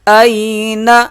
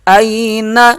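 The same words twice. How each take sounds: No difference in how they are said.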